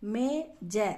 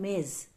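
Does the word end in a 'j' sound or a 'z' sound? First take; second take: j sound; z sound. First: The word ends with a 'j' sound. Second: The word ends with a 'z' sound. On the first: The speaker calls it wrong. "மேஜன்னு சொல்லாம" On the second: The speaker calls it right. "மேஸ் அப்படி சொல்லணும்"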